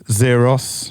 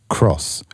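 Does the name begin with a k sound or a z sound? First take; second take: z sound; k sound. First: The name begins with a z sound. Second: The name begins with a k sound. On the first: The speaker calls it wrong. "This here does not say Zeros" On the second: The speaker calls it right. "It's meant to say Cross"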